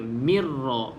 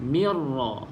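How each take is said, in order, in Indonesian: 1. Bunyi r digandakan dan dibaca jelas. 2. Bunyi r digandakan dan dibaca jelas.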